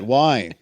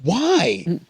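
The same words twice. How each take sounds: First: It is said in a flat, unenthusiastic tone. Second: It is said in an enthusiastic tone.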